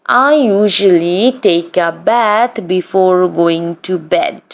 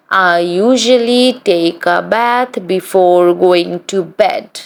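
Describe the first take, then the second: No difference in how they are said.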